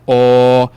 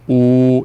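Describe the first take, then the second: First: The vowel is said with an open mouth. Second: The vowel is said with a closed mouth. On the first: "abrindo ele, ó, ele vai virando ó" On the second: "começar com o fechado"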